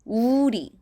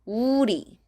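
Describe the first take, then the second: The two takes are said the same way.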